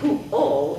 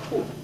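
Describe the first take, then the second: First: The word ends with a rounded L sound. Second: The word ends without any L sound. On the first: The speaker calls it right. "instead of saying pu-o" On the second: The speaker calls it wrong. "it comes out pu"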